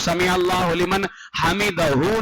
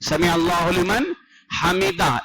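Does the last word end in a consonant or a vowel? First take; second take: vowel; consonant. First: The final h is followed by a vowel. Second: The final h is silent, with no vowel. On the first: The speaker calls it wrong. "ना कहे" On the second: The speaker calls it right. "ये सुन्नत है"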